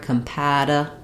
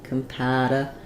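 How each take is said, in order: Both takes have the same delivery.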